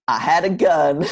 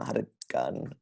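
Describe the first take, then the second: First: It is said in a put-on character voice. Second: It is said in his natural voice.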